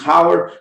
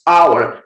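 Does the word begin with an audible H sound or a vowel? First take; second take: H sound; vowel. First: The word begins with an audible H sound. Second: The word begins directly with a vowel sound. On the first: The speaker calls it wrong. "não pronunciamos hour" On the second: The speaker calls it right. "nós pronunciamos hour"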